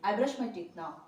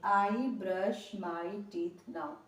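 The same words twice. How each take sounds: First: The sentence is said quickly and fluently. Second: The sentence is said slowly and carefully. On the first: The speaker has practised it for many days. "दस से पंद्रह दिन इस पर practice करेंगे, तो इसी sentence को आप इस तरह बोलेंगे" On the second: The speaker is just starting to learn it. "शुरुआत में जब इसको बोलेंगे तो आप इस तरह बोलेंगे"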